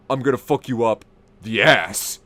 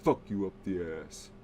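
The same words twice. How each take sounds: First: Put-on drunk calm menace. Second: Low, soft deadpan threat; a hint of drunk menace, low and soft. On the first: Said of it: "Jared goes". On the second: Shown as a demonstration. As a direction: say it dead-eyed and quiet. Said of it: "He said it like this".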